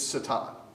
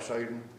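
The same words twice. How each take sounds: First: It is said with a Hebrew pronunciation. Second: It is said low and deep with a Southern grumble. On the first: The speaker is trying to sound learned. "In Hebrew, if you want to sound fancy" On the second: It is the regional South Georgia form. "South Georgia, you got to grumble a little bit, get your voice about two octaves lower"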